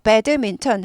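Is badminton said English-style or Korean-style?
Korean. It is said as the Korean loanword. The speaker calls it wrong. "배드민턴 하지 않고"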